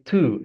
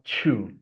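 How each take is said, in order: First: The word begins with a clean t sound. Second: The word begins with a ch sound. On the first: The speaker calls it right. "we're gonna say two" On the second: The speaker calls it wrong. "and not chew"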